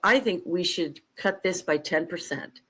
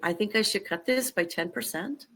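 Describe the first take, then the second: First: It ends with a falling, statement tune. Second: It ends with a rising, question tune.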